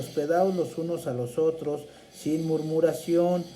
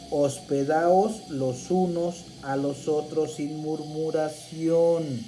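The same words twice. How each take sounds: First: It is read at a quicker, normal pace. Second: It is read at a noticeably slower pace.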